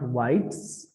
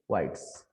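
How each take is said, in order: First: The word ends with a buzzing z sound. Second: The word ends with a hissing s sound. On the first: The speaker calls it wrong. "it's not whites" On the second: The speaker calls it right. "but it's whites"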